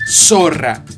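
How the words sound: The z is said like an s. This is how it is said in Latin America. "La Z tiene fuerza de doble S en toda Hispanoamérica y en parte de España"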